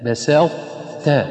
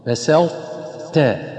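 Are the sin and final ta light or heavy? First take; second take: light; light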